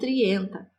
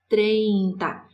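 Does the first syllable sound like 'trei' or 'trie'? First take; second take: trie; trei. First: The first syllable is said as 'trie'. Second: The first syllable is said as 'trei'. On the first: The speaker calls it wrong. "e não trienta" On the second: The speaker calls it right. "nós vamos pronunciar trinta"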